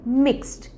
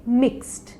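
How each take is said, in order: No difference in how they are said.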